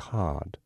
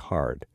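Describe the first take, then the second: First: The R sound after the vowel is dropped. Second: The R sound after the vowel is pronounced. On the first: "They would say hard, H-A-H-D" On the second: "we say hard ... That's a hard R"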